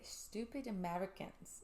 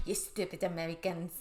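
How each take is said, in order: First: Slow, soft, tentative Scottish accent; attempted Scottish accent. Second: Mock-scornful French accent; accidental French accent. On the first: Shown as a demonstration. Host attempting it on co-host's dare, shaky Scottish accent. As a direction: try a Scottish accent, very unsure of it. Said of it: "let me mentally put myself there". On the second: Host voicing the annoyed video lady, accidental French accent. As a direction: slip into a French accent as you scold. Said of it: "Well, she's not French".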